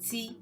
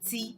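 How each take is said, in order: Both takes have the same delivery.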